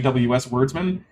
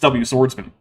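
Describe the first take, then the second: First: The S is said with W, before the break. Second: The S starts the word after the break. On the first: The speaker calls it wrong. "I've been saying W S Wordsman, and that's not correct" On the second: The speaker calls it right. "It's W Swordsman"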